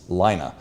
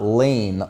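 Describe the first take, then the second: First: The name is said the way Finnish speakers say it. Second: The name sounds like the English word lane. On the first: The speaker calls it right. "how the Finnish announcer actually said it" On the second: The speaker calls it wrong. "it's not Lane like my middle name, which is how I pronounced it in the past"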